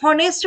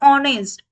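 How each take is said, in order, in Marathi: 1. शब्द h आवाजाने सुरू होतो. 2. शब्द थेट स्वराने सुरू होतो. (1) "आपण हॉनेस्ट म्हणतो का? नाही" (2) "तर त्याला म्हणतो ऑनेस्ट"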